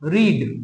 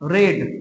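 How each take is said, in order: First: The vowel is a long 'ee' sound. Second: The vowel is a short 'e' sound. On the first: It is the present-tense form. "এটা V one" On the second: It is the past-tense form. "এটা V two"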